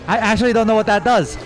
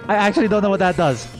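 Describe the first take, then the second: No difference in how they are said.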